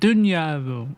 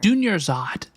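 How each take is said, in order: First: The name is slurred and run together. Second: The name is said carefully and clearly.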